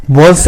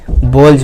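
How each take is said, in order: First: बॉल्स ending in an unvoiced S; बॉल्स with S in place of Z; wrong S ending. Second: बॉल्स ending in a voiced Z/J, as "bolj"; बॉल्स with the plural S said as Z; final Z sound. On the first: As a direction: say बॉल्स with a plain hissed S. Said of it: "नहीं पढ़ेंगे". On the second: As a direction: end बॉल्स on a buzz, not S. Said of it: "क्या पढ़ेंगे". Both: Shown as a demonstration.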